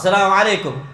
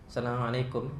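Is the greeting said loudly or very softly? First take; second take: loudly; very softly. First: The greeting is said very loudly. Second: The greeting is said very softly. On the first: The greeting would wake sleeping people. "Kuat-kuat aja dia" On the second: Nobody awake can hear the greeting. "salam nggak tadi? Salam kok, kok nggak denger?"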